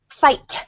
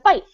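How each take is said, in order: First: The word ends with a clear t sound. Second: The word ends without a clear t sound. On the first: This is the enunciated way learned for the stage. "I had to learn when I was doing theater" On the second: This is how people talk in the speaker's small hometown. "It's F I G, F I H"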